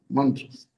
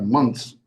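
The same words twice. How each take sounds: First: Said in the usual way. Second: "mantras" shortened to sound like "months"; imitated guru's pronunciation. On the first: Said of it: "he would pronounce like months". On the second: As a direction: say "mantras" squeezed into one syllable, "months". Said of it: "he would pronounce like".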